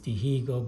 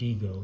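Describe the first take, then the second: First: The h sound in the middle is pronounced. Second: The h sound in the middle is silent.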